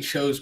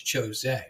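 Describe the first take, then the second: First: It is said like the English word chosen. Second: It is said with a Japanese-style pronunciation. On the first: The name comes from being the chosen one. "I say Chose personally, ... going off of like chosen" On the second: The name follows Japanese pronunciation. "his name is Chose because you know Japanese pronunciation"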